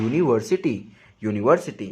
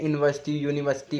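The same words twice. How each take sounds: First: यूनिवर्सिटी said clearly as yoo-ni-ver-si-ti; every syllable of यूनिवर्सिटी spelt out; correct pronunciation. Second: Mock यूनिवर्सिटी as इनवर्सटी, vowels swallowed; wrong village pronunciation. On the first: Shown as a demonstration. Teacher giving the right way after mocking the wrong. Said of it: "सही pronunciation क्या है". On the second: Teacher mimicking how villagers mispronounce the word. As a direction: imitate the careless यूनिवर्सिटी. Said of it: "गांव के ... बोलते हैं".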